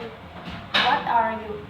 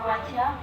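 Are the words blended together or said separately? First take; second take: separate; blended. First: The words are said separately. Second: The words blend into one.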